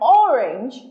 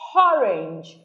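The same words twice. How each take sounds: First: It starts directly with the vowel, no h sound. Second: An h sound is added before the first vowel. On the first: "Instead of orange" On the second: "they say orange"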